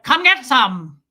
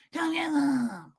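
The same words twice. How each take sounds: First: Put-on loud, punched German-accented challenge; forceful German accent, curt and loud; scary German accent. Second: High, slow, harmless drawl; slow, high mock challenge with no menace; not scary. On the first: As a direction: face down an intruder as a fierce German woman. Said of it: "with Sophia in there". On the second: Shown as a demonstration. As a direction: stretch it out, deliberately unthreatening. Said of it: "it's not anything like".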